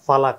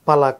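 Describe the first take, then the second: First: The first syllable is an aspirated pha. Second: The first syllable is a plain unaspirated pa. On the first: "ఒకడు ఫా ఫలక అని పలకొచ్చు" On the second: "ఇక్కడ పలక అని రాశారనుకోండి"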